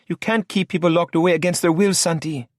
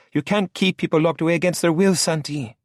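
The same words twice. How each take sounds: First: High female voice, indignant; Lola protesting. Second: High, faster echoing protest; remembered Lola protest. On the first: Lola objects to Santi locking people away, high and indignant. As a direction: object sharply in a higher voice. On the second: Santi hears Lola's protest echo while driving, high and quick. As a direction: replay her protest in his head, quicker. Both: A narrator's reading.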